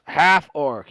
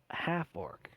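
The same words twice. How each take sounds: First: Loud chef's shout from the kitchen; calling out. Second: Hushed, half-whispered echo; quiet repeat. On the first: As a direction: call it across the room. Chef calls out from the back. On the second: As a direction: mull it over under your breath. Quiet repeat after the shout. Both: Acted.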